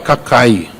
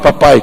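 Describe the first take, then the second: First: The word begins with a 'c' sound. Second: The word begins with a 'p' sound.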